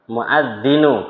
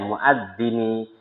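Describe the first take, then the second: First: The word ends with an oo vowel. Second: The word ends with an ee vowel. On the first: The speaker calls it wrong. "Kenapa dibaca muadzinu?" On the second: The speaker calls it right. "Jadi bacanya harusnya muadzini"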